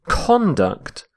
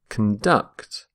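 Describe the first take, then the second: First: The stress is on the first syllable. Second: The stress is on the second syllable.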